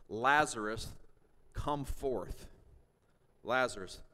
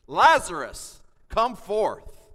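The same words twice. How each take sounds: First: Said in the usual way. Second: Full-voiced, high, loud call of command; commanding shout. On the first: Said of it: "he cried out with a loud voice". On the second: Shown as a demonstration. Pastor voicing Jesus calling Lazarus from the tomb, full shout. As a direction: shout it like waking the dead. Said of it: "The word cry means a shout".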